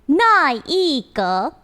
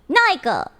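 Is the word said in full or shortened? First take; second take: full; shortened. First: Every syllable is said fully and drawn out. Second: The syllables are run together into a shorter form. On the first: "When you say it all together and the longness of it all" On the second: "Now you can shorten this word to"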